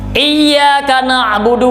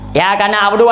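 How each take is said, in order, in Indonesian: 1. Bunyi y digandakan dan ditahan. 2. Bunyi y tunggal dan pendek. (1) "kepada engkau ulun sembah" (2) "hana tasdid ini baca"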